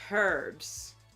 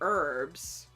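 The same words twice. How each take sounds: First: The word begins with an audible h sound. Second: The word begins without any h sound. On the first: This is how people in the UK say it. "They'll also say herbs, which is how it's spelled" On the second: This is how people in America say it. "we say herbs because the H is silent"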